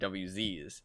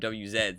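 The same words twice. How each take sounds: First: The letters are said the North American way. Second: The letters are said the European way. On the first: "instead of W Zs" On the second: "I keep calling them W Zs"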